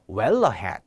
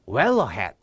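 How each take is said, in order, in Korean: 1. 'ahead'의 첫 모음은 짧아지고 다음 소리와 이어져요. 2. 'ahead'의 첫 모음은 짧아지고 다음 소리와 이어져요.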